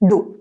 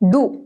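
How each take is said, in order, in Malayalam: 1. സ്വരം 'oo' പോലെയാണ്. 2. സ്വരം 'oh' പോലെയാണ്. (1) "ഒരു d കഴിഞ്ഞിട്ട് ഒരു u" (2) "do അല്ല"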